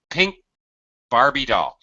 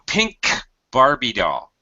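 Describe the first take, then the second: First: The K is held and never released. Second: The K is released with a puff of air. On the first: The speaker calls it right. "I move my tongue up to position, getting ready to drop it to aspirate and pronounce the K, but I never do" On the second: The speaker calls it wrong. "So I'm not saying pink Barbie doll. I don't do that"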